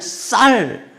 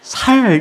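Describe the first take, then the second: First: The first consonant is a tense s. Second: The first consonant is a plain s. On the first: "쌀 하면" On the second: "이 쌀을 살 이러는 분이 있어요"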